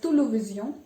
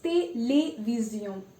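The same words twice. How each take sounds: First: The e vowels are said without the accented sound. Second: The e vowels are said with the accented sound. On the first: The speaker calls it wrong. "so that you don't pronounce it as télévision" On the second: The speaker calls it right. "and it's télévision"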